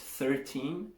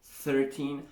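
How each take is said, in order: The two takes are said the same way.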